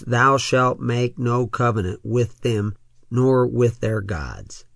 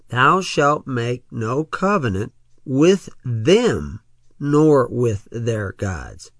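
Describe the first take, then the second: First: The verse is read at a fast pace. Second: The verse is read at a slow pace. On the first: "I read that rather rapidly" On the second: "now let's read it slowly"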